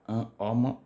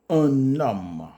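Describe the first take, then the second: First: The n is not linked to the next vowel. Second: The n is linked to the next vowel. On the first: The speaker calls it wrong. "on ne dit pas un homme" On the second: The speaker calls it right. "on fait la liaison"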